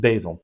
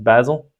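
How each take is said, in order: First: It is said with an American pronunciation. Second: It is said with a British pronunciation.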